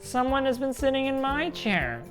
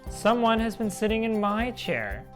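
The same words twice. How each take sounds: First: It is said in a wee small voice. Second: It is said in a middle-sized voice.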